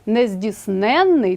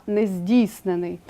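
First: "нездійсненний" stressed on НЕН, long н; stress on suffix. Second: "нездійснений" stressed on ДІЙ, single н; stress on root. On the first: Teacher contrasts adjective with participle, stressing НЕН in нездійсненний. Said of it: "із наголосом на суфіксі". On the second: Teacher contrasts participle with adjective, stressing ДІЙ in нездійснений. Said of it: "з наголосом на корені". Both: Shown as a demonstration.

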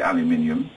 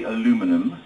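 First: "aluminium" said the British way, al-yoo-MIN-ee-um; five syllables in "aluminium", stress on MIN; British pronunciation. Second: "aluminum" said the American way, a-LOO-mi-num; American pronunciation. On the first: Brit showing how we say "aluminium", as al-yoo-MIN-ee-um. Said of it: "and we say aluminium". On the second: Brit showing Americans how you say "aluminum", stressed a-LOO-mi-num. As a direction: stress the second syllable of "aluminum", no extra i. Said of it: "you say aluminum". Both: Shown as a demonstration.

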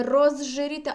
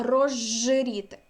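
First: Розжиріти as written, з then ж, louder; z and zh separate. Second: Розжиріти drawn out slowly, зж merged into long жж. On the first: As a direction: keep з apart from ж in розжиріти. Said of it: "тобто не". (розжиріти з окремими з і ж) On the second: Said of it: "«ж» подовжене". (розжиріти повільно, з довгим жж) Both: Shown as a demonstration.

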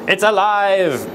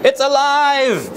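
First: Mad scientist. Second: High, slow triumphant cry; mad scientist. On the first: Frankenstein line, first take. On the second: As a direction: shout it like Frankenstein. Frankenstein line, higher take. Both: Pretend.

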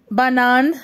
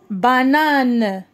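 First: Said in the usual way. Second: "Banane" with the last syllable held, falling. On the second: Shown as a demonstration. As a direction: draw "Banane" out as ba-nane. ("Banane" مقطعًا مقطعًا) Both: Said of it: "نقراو les syllabes".

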